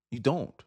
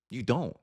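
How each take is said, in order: Both takes have the same delivery.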